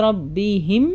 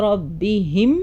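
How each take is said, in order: No difference in how they are said.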